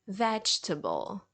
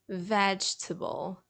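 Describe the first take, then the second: First: The middle e is silent, giving three syllables. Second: The middle e is silent, giving three syllables.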